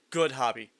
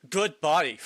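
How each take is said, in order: First: Good hobby read as a misreading; name guessed as good hobby. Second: Good body said as the corrected reading; corrected name. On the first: Streamer misreads the hobbit name as good hobby. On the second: Streamer corrects the name to Good body. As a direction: put it right as Good body. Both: Shown as a demonstration. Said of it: "It's not good hobby, it's good body".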